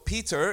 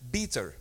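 First: The word begins with a P sound. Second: The word begins with a B sound.

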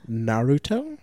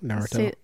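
First: The word is said slowly and carefully. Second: The word is said at a normal, quick pace.

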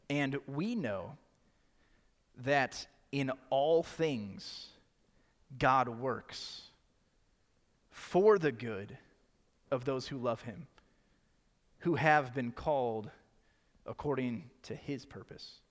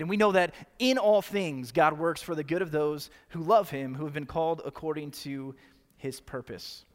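First: It is read slowly and carefully. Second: It is read at normal speed.

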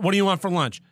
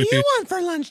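First: It is said in a plain everyday voice. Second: It is said in a put-on baby-talk voice. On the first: The listener is treated as an ordinary adult. The speaker calls it right. "Ask a question once in a normal tone of voice" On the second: The listener is treated like a small child. The speaker calls it wrong. "Someone baby talks you"

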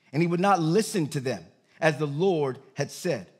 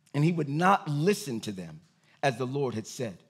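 Both takes have the same delivery.

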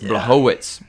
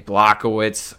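First: The name is said with Polish-style sounds. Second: The name is said with English-style sounds. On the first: The speaker calls it right. "the Polish name" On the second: The speaker calls it wrong. "I'm saying that wrong"

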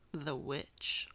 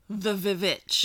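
First: The word starts with a plain w sound. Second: The word starts with a doubled v sound. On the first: The speaker calls it right. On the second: The speaker calls it wrong.

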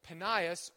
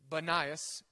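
First: The name begins with a P sound. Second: The name begins with a B sound. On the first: The speaker calls it right. "the town was called Panias" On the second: The speaker calls it wrong. "if you mess up the pronunciation"

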